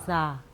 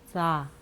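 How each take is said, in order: First: The s hisses with air leaking at the teeth. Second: The same.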